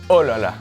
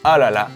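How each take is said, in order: First: The first vowel is an oh sound. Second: The first vowel is an ah sound. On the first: "or oh la la" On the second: "We say ah la la"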